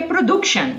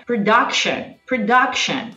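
First: "production" with an O/U vowel in the middle; mistaken vowel reading. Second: "production" with an open "duck" middle syllable; correct English vowel. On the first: Teacher showing students the misread U, "production" with an oo-like middle vowel. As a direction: say "production" with DUC rhyming with "book". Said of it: "você vai achar que é production". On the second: Teacher modelling the word for students, "production" with an open uh vowel. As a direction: say "production" stressing DUC, rhyming with "duck". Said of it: "É um sonzinho de O, U, né?".

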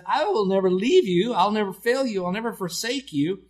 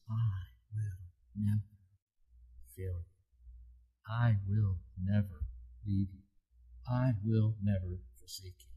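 First: Higher and louder, proclaiming each never; booming proclamation. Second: Soft tender promise. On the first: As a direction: declare it like a promise from the pulpit. Preacher proclaims God's promise. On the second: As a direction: let it land gently, like a reassurance. Preacher repeats promise as reality. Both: Acted.

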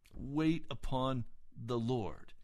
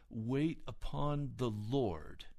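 First: Slowly, leaning on Wait; preacher repeating the word, slow and firm; slow, emphatic repeat. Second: Slow and heavy on Wait; solemn divine words, drawn out; slow, weighty quote. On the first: Shown as a demonstration. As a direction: press Wait upon the Lord home to the listeners. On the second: Retold or imitated. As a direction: let Wait upon the Lord sink in slowly. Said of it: "No, he said".

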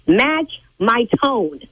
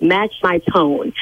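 First: Each word slow and pointed, Match my tone; slow, stressed command. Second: Slow, each word stressed, Match my tone; slow firm command. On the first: Interpreter lecturing the caller, Match my tone slow and firm. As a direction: spell out Match my tone slowly and firmly. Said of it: "I told you to match my tone". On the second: Interpreter instructing caller, slow and firm. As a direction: drag out Match my tone firmly. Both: Real, not acted.

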